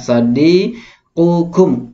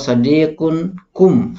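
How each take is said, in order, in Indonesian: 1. Tidak ada bunyi n sebelum kum. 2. Bunyi n ada sebelum kum. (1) "jadi yang benar sadi sadiqukum" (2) "ini agak ganjil ya kalau sadiqun kum"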